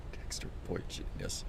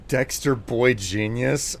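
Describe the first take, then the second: First: Put-on breathy whisper of Dexter Boy Genius. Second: Said in the usual way. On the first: Shown as a demonstration.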